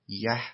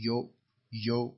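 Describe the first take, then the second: First: The word is reduced to an eh vowel. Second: The word has a normal oo vowel. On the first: "یکی یه" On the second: "یکی یو"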